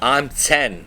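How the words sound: It is said in a Pennsylvania Dutch accent.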